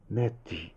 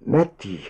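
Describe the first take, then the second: First: Tentative call. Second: Name repeated with more force; insistent call. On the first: Husband kneels by motionless wife, calling softly. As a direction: say the name quietly, unsure of an answer. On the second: Husband kneels by motionless wife, calling insistently. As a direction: raise it slightly, wanting an answer. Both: A narrator's reading.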